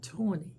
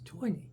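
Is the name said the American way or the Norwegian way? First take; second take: American; Norwegian. First: The name is said with an American pronunciation. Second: The name is said with a Norwegian pronunciation. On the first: The speaker calls it wrong. "you Americans watching this, it's not Tony" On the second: The speaker calls it right. "it's Tony"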